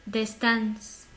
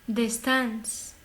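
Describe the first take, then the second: The two takes are said the same way.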